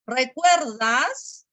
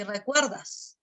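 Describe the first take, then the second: First: "recuerdas" stretched, rising at the end; questioning intonation. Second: "recuerdas" falling at the end; statement intonation. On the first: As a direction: ask "recuerdas?" slowly. («recuerdas» como pregunta, alargado) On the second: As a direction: state "recuerdas", closing downward. («recuerdas» como afirmación, tono descendente) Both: Shown as a demonstration. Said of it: "la entonación".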